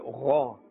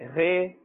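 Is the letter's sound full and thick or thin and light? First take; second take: full; thin. First: The letter is said with a full, thick sound. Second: The letter is said with a thin, light sound. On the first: The speaker calls it right. "We should say gha. This also has a fuller sound" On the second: The speaker calls it wrong. "We should not say ghe"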